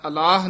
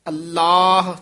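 First: The l sound is short and loose. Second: The l sound is held tight and doubled. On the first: The speaker calls it wrong. "ਨਹੀਂ ਕਹਿਣਾ ਹੈ" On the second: The speaker calls it right. "ਥੋੜਾ ਜਿਹਾ ਕਸ ਕੇ ਬੋਲਣਾ"

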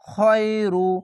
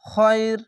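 First: The word ends with a final 'u' vowel. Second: The word ends on the consonant, vowel dropped. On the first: The speaker calls it wrong. "এখানে রু না বলে সে সকল সাকিন দিবেন" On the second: The speaker calls it right. "এভাবে থেমে যাবেন"

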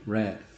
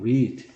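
First: The vowel is a short 'eh' sound. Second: The vowel is a long 'ee' sound. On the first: It is the past or past participle. "에 발음이에요" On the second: It is the present tense. "이 발음이야"

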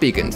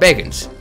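First: The first vowel sounds like 'ee' in 'see'. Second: The first vowel sounds like 'ay' in 'say'. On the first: The speaker calls it wrong. "not beacons" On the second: The speaker calls it right. "Called bacons, That's how you say it in a Hylian"

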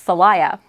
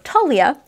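First: The name begins with a 'th' sound. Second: The name begins with a plain 't' sound. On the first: "two different pronunciations said it's actually pronounced Thalia" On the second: "which is how I thought it was pronounced at the time"

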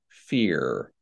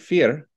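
First: The final R is a hard R. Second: The final R is a soft American R. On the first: "with Brazil, what I'm getting is a hard R" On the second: "I would normally say fear"

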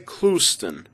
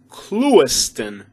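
First: The name is pronounced in the casual local way. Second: The name is pronounced in the careful formal way. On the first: This is how residents say it among friends. "But the locals say" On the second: This is the proper pronunciation, fit for a job application. "The proper way to pronounce this one is"

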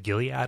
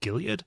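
First: The word ends in a full, hard 'ad' syllable. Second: The word ends in a reduced, softer final syllable. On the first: "the hard ad on that is actually difficult for me to do" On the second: "In Ohio, there's a city called Mount Gilead, and we always say it Gilead"

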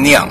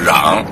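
First: The word starts with an n sound. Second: The word starts with an r sound. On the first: The speaker calls it right. "那应该念酿" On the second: The speaker calls it wrong. "就念成了瓤"

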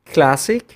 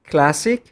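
Both takes have the same delivery.

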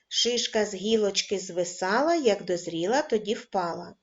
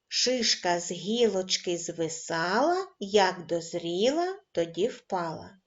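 First: The rhyme is read at a medium pace. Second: The rhyme is read at a slow pace. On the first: "кожен раз, пришвидшуючи темп" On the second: "Починаємо читати кожен раз, пришвидшуючи темп"

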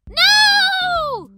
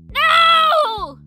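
First: The voice sounds high and squeaky. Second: The voice sounds hard and harsh.

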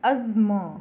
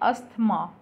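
First: The middle has a single z sound. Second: The middle has an s followed by a th. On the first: The speaker calls it right. "इसका correct pronunciation है अज्म" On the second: The speaker calls it wrong. "इसे हम बोलते हैं अस्थमा normally, पर ये इसकी correct pronunciation नहीं है"

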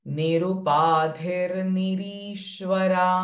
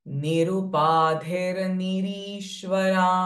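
Both takes have the same delivery.

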